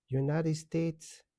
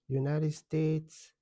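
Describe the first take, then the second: No difference in how they are said.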